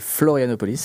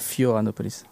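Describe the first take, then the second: First: The name starts with 'Flo' and keeps the 'l'. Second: The name starts with 'Fio' and has no 'l'. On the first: The speaker calls it right. "C'est Florianopolis" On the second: The speaker calls it wrong. "pas Fioranopolis"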